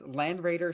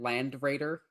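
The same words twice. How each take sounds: First: The final D of Land is dropped. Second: The final D of Land is clearly pronounced. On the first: The speaker calls it right. "sounds better" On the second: The speaker calls it wrong. "Like hard pronouncing the D"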